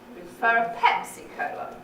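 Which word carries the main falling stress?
Pepsi. The main fall is on the word Pepsi. "It's on the Pepsi, isn't it?"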